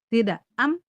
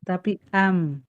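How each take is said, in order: First: The final m is stopped short and held back. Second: The final m is neither stopped nor drawn out. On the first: The speaker calls it wrong. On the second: The speaker calls it right. "Tidak tertahan dan tidak ngalir"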